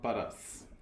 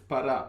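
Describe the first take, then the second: First: The word ends with an s sound. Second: The word ends on a vowel sound. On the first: The speaker calls it wrong. "It's not paras" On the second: The speaker calls it right. "it's para"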